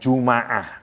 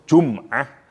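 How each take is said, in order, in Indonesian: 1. Huruf m diikuti vokal a. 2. Huruf m tidak diikuti vokal. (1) "kalau dibaca fathah mimnya" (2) "bisa dibaca dengan sukun"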